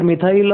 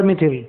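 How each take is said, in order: First: Methyl said "mi-thail", with an "eye" glide; first accepted variant. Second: Methyl said "mi-thil", with short i; second accepted variant. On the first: Teacher offers students both names, methyl said "mi-thail". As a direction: rhyme methyl with "mile". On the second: Teacher offers students both names, methyl said "mi-thil". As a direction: rhyme methyl with "till". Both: Shown as a demonstration. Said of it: "You can call it methyl or methyl".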